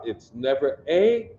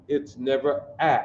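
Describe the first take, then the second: First: Final "a" said "ay" as in day, rising; long A. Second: Final "a" said as the vowel in cat; short A. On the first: Teacher ruling out a vowel for the class, A said "ay". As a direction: end on A as the letter's name. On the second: Teacher ruling out another vowel, A said as in cat. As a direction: end on a short, flat-vowel A as in "at". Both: Shown as a demonstration. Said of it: "Because our ah sound is always ah".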